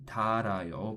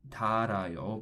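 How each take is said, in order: First: A single l sound joins the middle syllables. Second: A single l sound joins the middle syllables.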